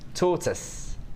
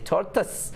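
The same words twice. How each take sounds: First: It is said in a London accent. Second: It is said with a Scottish twang. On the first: "in London they pronounce the word tortoise" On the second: "I've still got a little Scottish twang in there"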